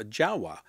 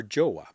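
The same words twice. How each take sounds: First: "Jawa" with an "ah" vowel in the first syllable; "Jawa", first syllable rhyming with "spa"; first pronunciation. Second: "Jowa" with an "oh" vowel in the first syllable; "Jowa", first syllable rhyming with "go"; alternative pronunciation. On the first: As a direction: say "Jawa" as JAH-wah. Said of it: "if I pronounce that correct". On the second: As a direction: say "Jowa" as JOH-wah. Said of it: "depending on how you want to pronounce it". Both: Shown as a demonstration.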